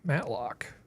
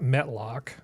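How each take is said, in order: First: The first vowel sounds like the 'a' in cat. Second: The first vowel sounds like the 'e' in bet. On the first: The speaker calls it right. "Matlock, not Metlock" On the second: The speaker calls it wrong. "not Metlock"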